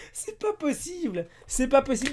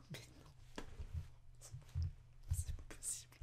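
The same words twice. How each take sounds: First: Bien plus aigu, lent puis fort; s'exclamer, sidéré; cri incrédule. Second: Souffle à peine, sans voix; chuchoté incrédule. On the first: (exclamation aiguë et stupéfaite) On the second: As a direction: murmure n'en croyant pas ses yeux. (chuchotement sidéré, presque muet) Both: Real, not acted. Incrédule devant la culotte.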